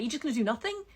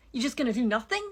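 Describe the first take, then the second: First: Sharp, disbelieving challenge; frustrated at people who accept everything, exasperated; exasperated question. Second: Louder exasperated repeat. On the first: Ranting at complacent people, a first exasperated ask. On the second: Repeating it louder at complacent people, exasperated shout. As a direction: shout the question the second time, louder. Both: Real, not acted.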